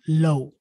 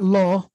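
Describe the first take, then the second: First: The vowel sounds like 'oh'. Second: The vowel sounds like 'aw'. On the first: The speaker calls it right. "but low" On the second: The speaker calls it wrong. "So not law"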